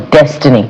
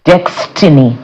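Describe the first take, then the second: First: "[name]" said as DESS-tuh-nee; ordinary-word pronunciation. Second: "[name]" said as DEX-tinny; spelled-out pronunciation. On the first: Offering the other reading of the name, "[name]" as DESS-tuh-nee. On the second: Asking how the artist's name goes, "[name]" as DEX-tinny. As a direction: say "[name]" with a KS, DEX-tih-nee. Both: Shown as a demonstration. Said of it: "How do you pronounce that?".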